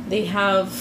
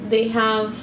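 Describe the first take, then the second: The two takes are said the same way.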